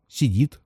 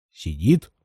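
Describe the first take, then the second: First: Said in the usual way. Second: Low, doubtful questioning echo; low, wary "Сидит?" with a rising end; suspicious echo. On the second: Acted. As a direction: repeat it back, not believing.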